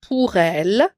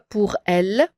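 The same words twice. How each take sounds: First: The r runs smoothly into the following vowel. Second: The r is cut off from the following vowel. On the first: The speaker calls it right. "on fait la liaison. On dit pour elle" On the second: The speaker calls it wrong. "On ne dit pas pour elle"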